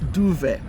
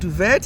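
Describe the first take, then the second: First: The final T sound is silent. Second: The final T sound is pronounced. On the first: The speaker calls it right. "That T is silent" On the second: The speaker calls it wrong. "So it's not duvet"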